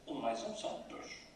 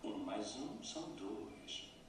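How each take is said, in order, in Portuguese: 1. A voz desce de repente no dois. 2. O dois é prolongado e cai na segunda metade. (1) "E se descermos no dois ... A melodia da impaciência" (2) "O dois é prolongado como se tivesse duas sílabas. Dois. E a segunda sílaba desce. ... A melodia da desculpa"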